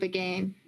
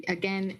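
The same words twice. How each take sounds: First: "again" rhyming with "rain"; fancy, accented "again", ending like "gain". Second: Said in the usual way. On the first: Real, not acted. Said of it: "You're getting all fancy on us". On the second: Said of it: "what accent that's from".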